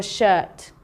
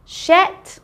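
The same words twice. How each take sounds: First: "shirt" with the long vowel of "her". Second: "shet" with the open vowel of head; wrong short "e". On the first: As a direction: say "shirt" to rhyme with "hurt". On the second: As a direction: say "shet" to rhyme with "bet". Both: Shown as a demonstration.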